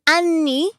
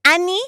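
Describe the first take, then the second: First: Anni with a short single N. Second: Anni with a long held double N, slow. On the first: Explaining Italian to friends, short single N in anni. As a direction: clip the N in anni, quick and light. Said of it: "and one has one N". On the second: Explaining Italian to friends, long double N in anni. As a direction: lean on the double N in anni, drawn out. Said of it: "One has two N's, which is years". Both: Shown as a demonstration.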